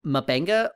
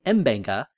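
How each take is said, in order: First: M'Benga as "muh-BENG-ga"; muh-Benga pronunciation. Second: M'Benga as "em-BENG-ga"; em-Benga pronunciation. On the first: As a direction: open M'Benga with a short unstressed "muh". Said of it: "a lot more consistently". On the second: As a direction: open M'Benga with a clear "em". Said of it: "more often people are saying". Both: Shown as a demonstration.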